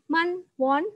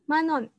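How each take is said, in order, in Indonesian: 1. Kedua suku kata diucapkan terpisah, tidak disambung. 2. Kedua suku kata disambung menjadi satu kata. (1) "membacanya bukan man won" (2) "digab, disambung gitu ya"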